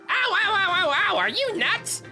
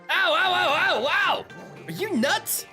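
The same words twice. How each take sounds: First: It is said in a goofy character voice. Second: It is said in a more normal voice.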